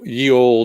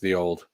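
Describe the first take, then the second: First: The first word starts with a 'y' sound. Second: The first word starts with a 'th' sound. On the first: The speaker calls it wrong. "I don't want to say ye" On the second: The speaker calls it right. "actually pronounced the old"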